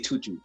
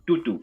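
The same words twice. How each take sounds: First: It is said in an English accent. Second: It is said in an African accent.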